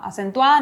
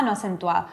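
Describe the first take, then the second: First: "acentuada" firmly said, rising at the end; stressed. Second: "no acentuada" lower and softer; unstressed. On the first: Teacher repeating the accented example, stressed. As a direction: lift and press "acentuada". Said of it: "En una sílaba acentúo". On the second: Teacher repeating the unaccented example, unstressed. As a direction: drop "no acentuada" away, without emphasis. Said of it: "en la otra no acentúo". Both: Shown as a demonstration.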